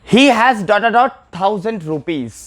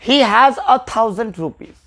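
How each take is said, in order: First: Very slow, each word drawn out; slow dictation. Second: Very slow, stress on a; slow answer. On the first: Teacher dictating a blank sentence to the class, very slow. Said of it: "जैसे मैं example ले लूँ". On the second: Teacher giving the filled-in answer to students, slow and clear. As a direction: lean on a and read it slowly. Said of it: "यहाँ पे तो आ होगा". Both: Shown as a demonstration.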